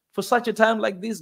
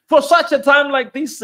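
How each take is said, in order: First: Said in the usual way. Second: Raised high and loud like a preacher; man, for such a time like this, rising to a shout; fervent preaching peak. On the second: Real, not acted. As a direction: lift it into a rousing cry. Preacher building to a climax.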